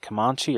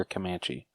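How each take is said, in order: First: "Comanche" as kuh-MAHN-chee; first pronunciation option. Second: "Comanche" as kuh-MAN-chee; second pronunciation option. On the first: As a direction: say "Comanche" with an open ah in the middle. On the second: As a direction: say "Comanche" with the vowel of "cat". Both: Shown as a demonstration. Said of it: "is it Comanche or Comanche?".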